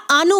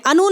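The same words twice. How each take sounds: First: आनु opening on a long aa; correct long vowel. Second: अनु with a short opening a; wrong short vowel. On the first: Teacher giving the right start, long aa. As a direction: lengthen the first vowel of आनु to aa. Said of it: "होगा". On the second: Teacher ruling out the wrong start, short a. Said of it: "नहीं होगा". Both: Shown as a demonstration.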